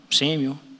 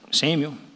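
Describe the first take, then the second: The two takes are said the same way.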